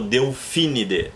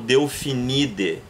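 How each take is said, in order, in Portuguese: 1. A tônica cai na antepenúltima sílaba. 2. A tônica cai depois da antepenúltima sílaba. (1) "e falo Delfinide" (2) "eu não falo Delfinide"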